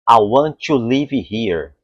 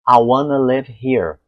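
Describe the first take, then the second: First: It has a strong Brazilian Portuguese accent. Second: It has a native English accent, reduced to wanna. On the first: The speaker calls it wrong. "isso é um som meio, né, aportuguesado, né, um sotaque forte" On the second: The speaker calls it right. "Falam para mim assim"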